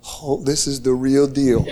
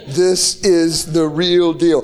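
First: Low, half-laughed disbelief; laughing realization. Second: Drawn out slowly and sung; sung refrain. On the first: Preacher to congregation, recalling the moment, laughing low. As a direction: chuckle it out as it sinks in. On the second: Preacher repeats his realization to the crowd, slow singing. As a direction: stretch it into a slow sung line. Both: Real, not acted.

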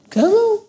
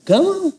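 First: Even higher sharp call; the preacher calls his listener forward, high; commanding call. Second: High, sharp call of come on; a commanding come on shouted out high. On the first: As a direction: reach up and summon. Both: Retold or imitated. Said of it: "He doesn't say things like".

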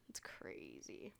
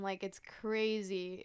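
First: Breathy whispered aside, much softer. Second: Said in the usual way. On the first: Real, not acted. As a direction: drop to a hushed whisper in awe. Repeated "it's crazy", whispered.

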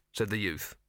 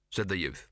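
The two takes are said the same way.

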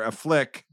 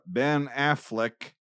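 First: Affleck with a weak "uh" to start, stress on FLECK; mispronounced Affleck. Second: Said in the usual way. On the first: Retold or imitated. Retelling a teacher's current-events slip, Affleck said as "uh-FLECK". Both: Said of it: "somebody finally corrected me".

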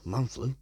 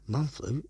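The two takes are said the same way.

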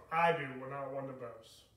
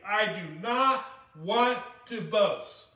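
First: Said in the usual way. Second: "not" drawn out slow and loud, quote said louder at half pace; stress on not. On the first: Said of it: "he says it right here". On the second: Shown as a demonstration. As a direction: lean hard on "not" in "I do not want to boast". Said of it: "Paul sets the stage immediately".

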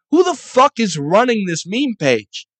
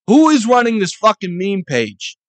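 First: Higher, louder exasperated demand; exasperated rant. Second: Louder, higher, stress on fucking; angrier repeat. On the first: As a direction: rage at whoever runs the page. Ranting at meme pages. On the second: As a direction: hammer the question home harder. Repeats question harder. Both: Real, not acted.

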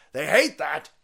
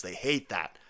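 First: Louder repeat. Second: Said in the usual way. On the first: Real, not acted.

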